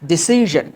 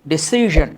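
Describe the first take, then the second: No difference in how they are said.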